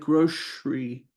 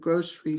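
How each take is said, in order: First: The middle consonant is an sh sound. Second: The middle consonant is a plain s sound.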